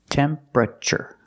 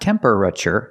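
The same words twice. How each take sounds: First: The word is said with three syllables. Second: The word is said with four syllables. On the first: The speaker calls it right. "but three" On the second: The speaker calls it wrong. "not four syllables"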